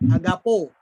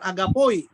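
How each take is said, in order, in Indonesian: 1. Kata ini berakhir dengan bunyi 'oh' biasa. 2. Kata ini berakhir dengan bunyi 'oy'.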